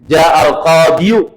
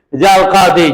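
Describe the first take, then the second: First: The final word ends with a pronounced 'yu'. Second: The final word ends with a plain 'ee'. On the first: The hidden case vowel is spoken aloud, which feels heavy. The speaker calls it wrong. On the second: The case vowel stays hidden, so it is light to say. The speaker calls it right.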